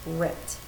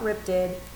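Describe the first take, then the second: First: The ending is a single final consonant. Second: The ending is an extra separate syllable. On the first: The speaker calls it right. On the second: The speaker calls it wrong. "Not ripped it"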